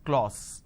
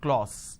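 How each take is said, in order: First: The vowel is an o sound. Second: The same.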